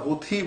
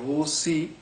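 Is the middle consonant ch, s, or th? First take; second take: th; s. First: The middle consonant is an aspirated th sound. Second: The middle consonant is a plain s sound. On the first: "হুথি বলছে থ দিয়ে" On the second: "দন্তা স দিয়ে বলছে"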